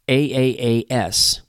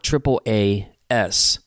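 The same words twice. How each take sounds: First: The acronym is spelled out letter by letter. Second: The acronym is said like the word 'ass'. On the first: "what does that acronym sound like?" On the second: "God is laughing at these ass clowns"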